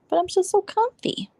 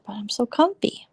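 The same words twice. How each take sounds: First: Whiny high. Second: Said in the usual way. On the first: Real, not acted. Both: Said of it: "I should just move to my computer".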